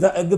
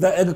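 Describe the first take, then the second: Both takes have the same delivery.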